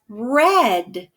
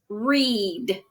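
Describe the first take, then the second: First: The vowel is a short 'e' sound. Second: The vowel is a long 'ee' sound. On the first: It means the reading already happened. "R E D, like the color" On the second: It means to read now or in general. "The first one says E"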